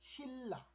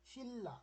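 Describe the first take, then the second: No difference in how they are said.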